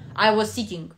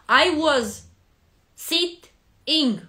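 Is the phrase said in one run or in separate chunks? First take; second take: one run; chunks. First: The words run together without pauses. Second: Short pauses separate the words into chunks. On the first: The speaker calls it wrong. "Не говорите" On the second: The speaker calls it right. "соблюдайте эти паузы, которые я делаю устно"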